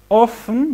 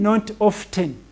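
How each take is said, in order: First: The t sound is silent. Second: The t sound is pronounced. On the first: The speaker calls it right. "This word often we only read three letters" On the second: The speaker calls it wrong. "Don't read often or often"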